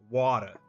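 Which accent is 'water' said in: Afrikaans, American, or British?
American. It is said in an American accent. "a lot of like Americans say like water"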